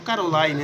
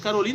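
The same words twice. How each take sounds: First: The name is said with English pronunciation. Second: The name is said with Portuguese pronunciation. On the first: "ou se é em inglês" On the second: "se é em português"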